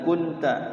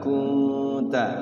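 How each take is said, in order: First: The n is pronounced clearly without held nasal sound. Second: The n is held and blurred as a nasal hum. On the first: The speaker calls it wrong. "jangan kunta ya" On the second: The speaker calls it right. "Ditahan dulu ikhfa. Kunta, samarkan"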